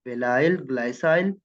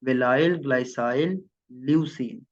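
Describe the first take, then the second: First: वेलाइल, ग्लाइसाइल demonstrated syllable by syllable; pronunciation demo. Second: वेलाइल, ग्लाइसाइल rising, ल्यूसीन falling; pronunciation demo. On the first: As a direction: read out वेलाइल, ग्लाइसाइल as the model sequence. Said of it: "तो इसको ऐसे पढ़ते हैं". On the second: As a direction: list वेलाइल ग्लाइसाइल ल्यूसीन, ending with a fall. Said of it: "आपने इसको ऐसे ही पढ़ना है". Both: Shown as a demonstration.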